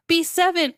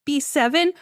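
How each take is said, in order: First: "B seven" stated higher, falling at the end; falling answer. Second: "B seven" rising at the end; questioning echo. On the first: Driver answering attendant, "B seven" as falling statement. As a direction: read out "B seven" with a closing fall. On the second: Attendant seeing the car, "B seven" with questioning rise. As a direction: repeat "B seven" as a surprised question. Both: Retold or imitated.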